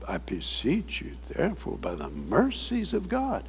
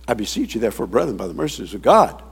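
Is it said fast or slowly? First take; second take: slowly; fast. First: It is said slowly. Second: It is said fast.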